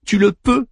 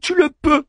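First: Higher, firm retort; wife contradicting Hector, higher and firm; insisting wife. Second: Much higher, crying out "Tu le peux"; wife pulling away from Hector, crying out. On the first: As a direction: throw "Tu le peux" back at him, higher and insistent. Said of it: "répliqua Andromaque". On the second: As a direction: fling "Tu le peux" at him as she tears free, much higher. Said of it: "s'écria Andromaque". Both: Acted.

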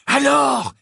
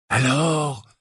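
First: High, loud, gleeful cry; excited demand. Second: Higher, insistent question; pressing. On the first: Acted. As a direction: burst out, dying to hear more. Ron, after laughing, demands the details. (cri excité, aigu et fort) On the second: A narrator's reading. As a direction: press for the answer. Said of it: "d'une voix pressante". (voix pressante)

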